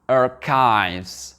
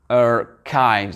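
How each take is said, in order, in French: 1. Le mot se prononce à l'anglaise. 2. Le mot se prononce à l'anglaise.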